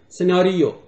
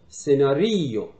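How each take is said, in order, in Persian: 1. تکیه روی هجای دوم است. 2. تکیه روی هجای یکی مانده به آخر است. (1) "انگلیسی فشارش روی سیلاب یا بخش دومه" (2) "یه ایتالیان فشارش روی ما قبل آخره"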